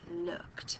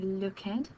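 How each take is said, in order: First: The ending blends into one syllable. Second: The ending is spoken as a separate syllable. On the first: The speaker calls it right. "Your first word is the word looked" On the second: The speaker calls it wrong. "we don't say looked"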